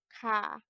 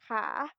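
First: The pitch stays low on the syllable. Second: The pitch rises on the syllable. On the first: "Ми додаємо зверху позначку низького тону. Тобто це звучить так" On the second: "вищий клас у нас є висхідним тоном, значить це в нас читається висхідним тоном"

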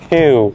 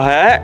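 First: It is read as an English word. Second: It is read as a Vietnamese syllable. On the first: The speaker calls it right. "nó là hue" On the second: The speaker calls it wrong. "nó không phải là Huế"

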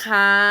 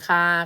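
First: The syllable has a high tone. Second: The syllable has a level mid tone. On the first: "ไม่โทค้า" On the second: "คอคา"

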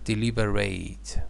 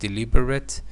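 First: The last syllable is a full 'rate'. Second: The last syllable is a short, weak 'rit'. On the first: It is a verb: to consider carefully. "As a verb" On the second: It is an adjective: done on purpose, careful and slow. "As an adjective"

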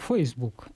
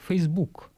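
First: The stress is on the first syllable. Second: The stress is on the second syllable. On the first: "в английском языке ударение всё-таки ставится на первый слог" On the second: "на второй слог"

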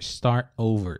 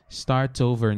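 First: The T in 'start' is stopped, not released. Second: The T in 'start' is fully released. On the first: "Se você quiser botar esse T com um stop T" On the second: "Ou se quiser botar o som do T norma- normal"

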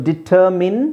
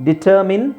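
Both takes have the same delivery.

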